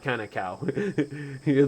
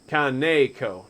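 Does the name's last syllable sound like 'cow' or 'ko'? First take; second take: cow; ko. First: The last syllable sounds like 'cow'. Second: The last syllable sounds like 'ko'. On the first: The speaker calls it wrong. "Like I said it like a cow" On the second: The speaker calls it right. "Kaneko, not"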